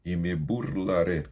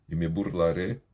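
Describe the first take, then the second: No difference in how they are said.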